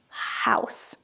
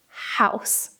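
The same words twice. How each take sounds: First: It starts with a breathy h sound. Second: It starts with a breathy h sound.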